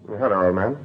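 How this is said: It is said in a natural, casual way.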